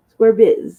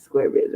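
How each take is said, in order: First: Chanted, punch "square biz" out loud and higher; loud mock chant. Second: Whispered echo. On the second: Acted. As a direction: let "square biz" fall away to a whisper. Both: Mocking chant about square life.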